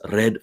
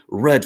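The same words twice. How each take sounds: First: The word is said with a foreign accent. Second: The word is said with a native accent. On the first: The speaker calls it wrong. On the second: The speaker calls it right.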